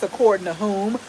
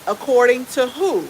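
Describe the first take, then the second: First: 'whom' with a clear closing m; correct whom. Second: Said in the usual way. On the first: Shown as a demonstration. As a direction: finish 'whom' on a firm m sound. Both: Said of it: "it's according to whom".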